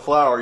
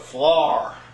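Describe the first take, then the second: First: It is said in a standard accent. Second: It is said in a Pennsylvania Dutch accent.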